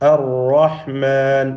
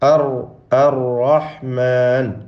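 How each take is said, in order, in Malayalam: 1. r ഒരു തവണ മാത്രം, വിറപ്പിക്കാതെ പറയുന്നു. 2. r വിറപ്പിച്ച് പലതവണ ആവർത്തിക്കുന്നു. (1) "റാ ഷദ് കൊടുത്തുകൊണ്ട് ഉച്ചരിക്കുന്ന അവസ്ഥയിലാകുമ്പോൾ അർ റഹ്മാൻ എന്ന് പറയുക" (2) "വിറപ്പിച്ചുകൊണ്ട് ആവർത്തിച്ചുകൊണ്ട് നാവിൻ്റെ അറ്റം കൂടുതൽ ഇളക്കിക്കൊണ്ട്"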